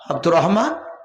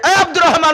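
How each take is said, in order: First: The name is called softly. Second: The name is shouted loudly.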